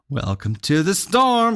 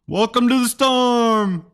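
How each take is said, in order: First: It is said in a plain voice. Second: It is said like a Moe's greeting.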